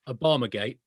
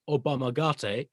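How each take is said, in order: First: It is said in a plain English way. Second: It is said in a Japanese-sounding way. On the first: It names a political scandal. The speaker calls it wrong. "people said just one word" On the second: It names an ancient Japanese martial art. The speaker calls it right. "if you pronounce it correctly"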